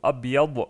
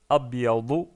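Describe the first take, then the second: First: The word ends with a consonant. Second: The word ends with a short vowel. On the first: The word is the last one before stopping. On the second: The word continues into more speech.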